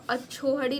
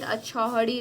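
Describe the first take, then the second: First: अछोहड़ी with a pure o after chh; misspelt form. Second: अछौहड़ी with an open au after chh; corrected form. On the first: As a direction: say "chho" in अछोहड़ी. (अछोहड़ी में "छो" बोलें) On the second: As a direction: say "chhau" in अछौहड़ी. (अछौहड़ी में "छौ" बोलें) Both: Shown as a demonstration. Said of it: "लेकिन अछौहड़ी रहेगा".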